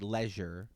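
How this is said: It is said with a British pronunciation. "the Brits say leisure"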